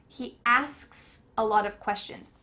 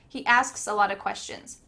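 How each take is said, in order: First: The sentence is said at a normal speed. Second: The sentence is said quickly.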